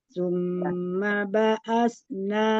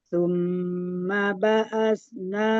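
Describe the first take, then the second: The two takes are said the same way.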